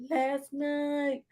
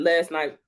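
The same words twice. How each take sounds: First: Voce alta e spezzata; high, soft, breaking. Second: Said in the usual way. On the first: Shown as a demonstration. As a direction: squeak it out, almost crying. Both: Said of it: "Bitch, last night".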